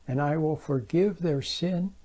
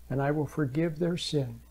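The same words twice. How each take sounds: No difference in how they are said.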